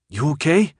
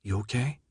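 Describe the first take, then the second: First: Higher, rising check-in; concerned question. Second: Soft, hushed question; whisper. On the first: Minho asking Thomas after his spasm, concerned. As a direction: ask it with raised, questioning pitch. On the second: Brenda checking on Thomas at the table, hushed. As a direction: ask it very quietly, with care. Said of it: "Brenda whispered". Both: A narrator's reading.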